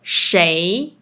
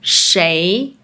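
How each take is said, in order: No difference in how they are said.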